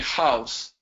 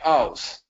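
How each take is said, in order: First: The word begins with an H sound. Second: The word begins without an H sound. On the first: The speaker calls it right. "they are not able to say house" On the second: The speaker calls it wrong. "don't pronounce that, ... They say house"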